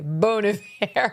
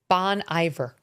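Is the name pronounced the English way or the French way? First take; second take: French; English. First: The name is pronounced the French way. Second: The name is pronounced the plain English way.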